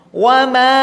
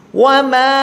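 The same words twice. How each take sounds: The two takes are said the same way.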